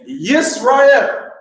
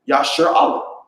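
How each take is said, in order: First: The name is said as Yisrael. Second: The name is said as Yasher Allah. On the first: The way others commonly pronounce the name. "they pronounce that Yisrael. That's how they say that" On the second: The name as written in the ancient script. "you'll see right here in Syrian"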